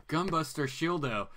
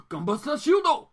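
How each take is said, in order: First: Said in the usual way. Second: Shouted high like a mecha hero calling his move; big high anime attack shout; anime battle cry. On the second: Retold or imitated. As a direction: belt out the robot's attack name. Quoting the anime's attack call.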